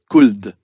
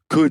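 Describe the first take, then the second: First: The word has another French-accented vowel. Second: The word has an English-sounding vowel. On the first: The speaker calls it wrong. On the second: The speaker calls it right. "producing English sounds"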